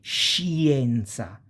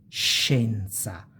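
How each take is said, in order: First: The i is sounded as a separate vowel. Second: The i is silent, going straight to e. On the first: The speaker calls it wrong. "you don't say scienza" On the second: The speaker calls it right. "you go directly on scienza, almost like this I is not even there"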